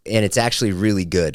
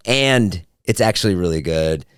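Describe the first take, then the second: First: Said in the usual way. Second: "and" drawn out and set apart; deliberate, stretched emphasis on "and"; stress on "and". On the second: Retold or imitated. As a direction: lean slowly on "and", then carry on. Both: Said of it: "I changed the".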